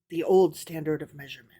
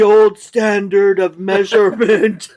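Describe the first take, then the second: First: The phrase is spoken quietly, as an aside. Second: The phrase is spoken louder than before. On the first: The speaker calls it wrong. "that was in parentheses, parentheses voice" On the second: The speaker calls it right. "You got to do your parentheses voice a little louder"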